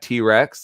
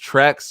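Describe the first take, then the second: First: The letter T is said apart from Rex. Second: The name is run together as one syllable. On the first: The speaker knows the name. The speaker calls it right. "you mean T Rex?" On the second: The speaker does not know the name. The speaker calls it wrong. "he keeps mispronouncing certain musicians' names"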